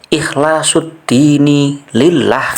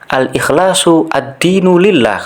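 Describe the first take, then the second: First: The word before lillah ends with an i vowel. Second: The word before lillah ends with a u vowel. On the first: The speaker calls it right. "kan begitu dibaca" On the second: The speaker calls it wrong. "kalau nggak salah tadi begitu ya"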